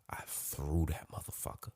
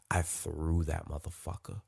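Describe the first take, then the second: First: Much softer, voiceless whisper; sheepish whisper. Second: Said in the usual way. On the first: Shown as a demonstration. Admitting to breaking her camera, in a guilty whisper.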